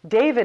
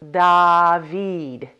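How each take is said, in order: First: The first vowel is a long ay sound. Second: The first vowel is an open ah sound.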